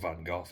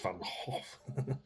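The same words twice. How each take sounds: First: The name is pronounced the English way. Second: The name is pronounced the Dutch way. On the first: The speaker calls it wrong. "Not Van Gogh" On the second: The speaker calls it right. "it's Van Gogh"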